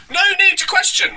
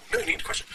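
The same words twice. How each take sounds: First: Very high-pitched full-voiced proclamation; mock preacher. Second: Softer, airy echo in mock amazement; hushed echo. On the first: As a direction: declare it as a squealing caricature preacher. Mocking quote of preacher's comment. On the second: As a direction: repeat it under the breath, taken aback. Stunned echo of the quote.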